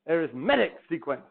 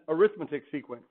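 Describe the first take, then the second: First: The stress is on the third syllable. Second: The stress is on the second syllable. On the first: The speaker calls it right. "When it's an adjective, it's arithmetic. You can put a little accent there" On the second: The speaker calls it wrong. "Or if you mispronounce it"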